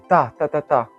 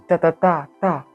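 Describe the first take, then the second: First: The first beat is the loudest. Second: The third beat is the loudest. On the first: "le premier, il est tapé fort" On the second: "le troisième est tapé fort"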